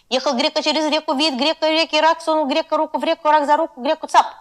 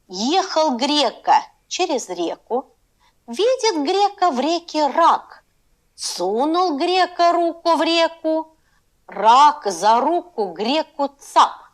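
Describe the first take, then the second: First: It is read at a fast pace. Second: It is read at a slow pace.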